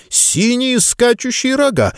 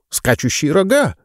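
First: High, slow eureka cry; sudden realization. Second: Said in the usual way. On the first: Acted. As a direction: it dawns on you, say it big.

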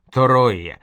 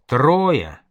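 First: "Троя" slowly opened up as то-ро-я; drawn-out syllables. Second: Said in the usual way. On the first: A narrator's reading. Caravan leader explains the name, saying "Троя" slowly as то-ро-я. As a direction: stretch "Троя" into three slow syllables, То-ро-я.

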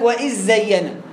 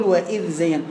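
First: وإذ زين with the dhal swallowed into a doubled zay; merged dhal. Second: وإذ زين with a distinct tongue-out dhal before the zay; lower, careful ذ kept apart from زين; corrected clear dhal. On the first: Retold or imitated. Imitating a student who gets it wrong, dhal merged. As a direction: run وإذ straight into a buzzing zz of زين. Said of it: "هنا واحد قال لك". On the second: Shown as a demonstration. Teacher correcting the student, clear unmerged dhal. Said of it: "يا عم يقول".

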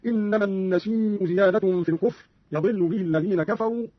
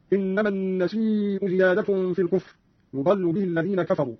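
First: يضل said "yadillu", a on ya and i on dad; fatha then kasra. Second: Said in the usual way. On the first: Shown as a demonstration. Teacher shows Qalun's reading, يضل as "yadillu". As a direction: open يضل with "ya", then "dill". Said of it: "بفتح الياء وكسر الضاد". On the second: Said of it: "قرأ قالون بفتح الياء وكسر الضاد".

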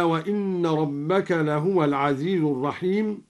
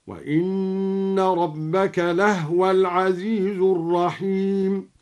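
First: Said in the usual way. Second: Slow chant, لهو as "lahwa"; silent-vowel ha. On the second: Shown as a demonstration. Teacher shows al-Duri's reading, slowly chanting لهو as "lahwa". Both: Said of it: "سكن الهاء هكذا".

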